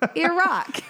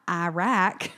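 First: It is said without a Texas accent. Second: It is said with a strong Texas accent. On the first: The speaker calls it right. "but Iraq" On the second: The speaker calls it wrong. "like not Iraq"

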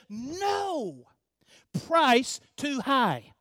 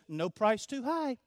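First: There is a break after "no". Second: It runs on without a break after "no".

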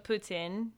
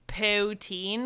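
First: It is said the Quebecois way, like 'poo-tsin'. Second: It is said the English way, like 'poo-teen'. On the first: The speaker calls it right. "I pronounce it like the Quebecois" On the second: The speaker calls it wrong. "it just sounds like poo"

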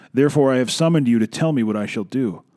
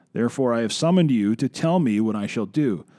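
The two takes are said the same way.

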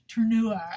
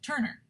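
First: The name is given a French-style pronunciation. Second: The name is given an anglicized pronunciation. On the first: "It's French" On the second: "I'm gonna say Turner because I'm not French"

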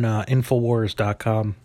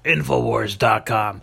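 First: It is said in the speaker's ordinary voice. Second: It is said in a put-on imitation voice. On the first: The speaker calls it wrong. "Wait, no, I gotta do the voice, right?" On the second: The speaker calls it right. "There's my Alex Jones for you, folks"

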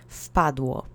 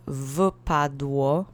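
First: The opening v sound is softened. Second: The opening v sound is fully pronounced. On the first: It follows everyday speech. "the V sound in the very beginning sometimes gets softened" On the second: It follows the written form. "instead of wpadło"

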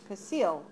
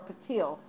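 First: The word is said with an s sound. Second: The word is said with a t sound.

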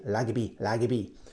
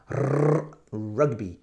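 First: The word begins with an L sound. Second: The word begins with an R sound. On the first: The speaker calls it wrong. "In Japan, sometimes we say lagby" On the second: The speaker calls it right. "But please say correct pronunciation"

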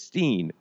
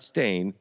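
First: The vowel is an ee sound, like steen. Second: The vowel is an ay sound, like stain. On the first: This is how the name is remembered. The speaker calls it right. "It's Steen" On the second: This is how the name is spelled now. The speaker calls it wrong. "not Stain"

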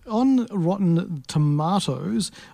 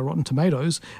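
First: It is said with a non-American accent. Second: It is said with an American accent.

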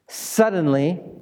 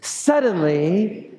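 First: It is said plainly, at a normal pace. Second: It is said slowly and dramatically.

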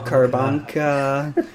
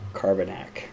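First: The name ends with a 'ka' sound. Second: The name ends with a 'nak' sound. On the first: The speaker calls it wrong. "Just couldn't get it" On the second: The speaker calls it right. "I finally figured out it was Carbanak"

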